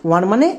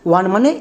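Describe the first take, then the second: The two takes are said the same way.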